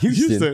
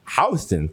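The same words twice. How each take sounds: First: The name is said the Texas city way. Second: The name is said the New York street way. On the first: This marks the speaker as an outsider. The speaker calls it wrong. "not Houston. ... You're not a cowboy" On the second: This is how locals say the street name. The speaker calls it right. "House Street's pronounced Houston"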